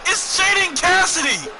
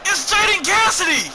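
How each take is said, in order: First: High, loud and slow, stretching the name; slower hammed-up hype yell; drawn-out announcer shout. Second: High, loud hype shout of the name; sudden high shriek of excitement; ring announcer shout. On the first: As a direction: drag the name out for the crowd. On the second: Acted. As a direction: bellow it like the arena announcer. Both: Announcing a wrestler's entrance.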